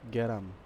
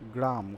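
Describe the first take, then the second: First: A vowel sound breaks up the g and r. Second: The g and r form one tight cluster. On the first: "তখন আমরা বলে ফেলি গ্যারাম" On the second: "আমরা সাধারণত বলি গ্রাম কথাটা বলি"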